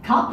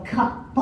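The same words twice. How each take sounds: First: Said in the usual way. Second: CUP drawn out with hard, separated consonants; slow demonstration. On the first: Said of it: "alternate back and forth between". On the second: Retold or imitated. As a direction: say CUP very slowly, like a speech therapist. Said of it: "saying it very slowly".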